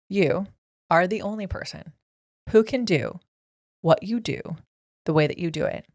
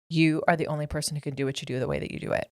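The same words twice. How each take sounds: First: It is said slowly and deliberately. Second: It is said at a normal pace.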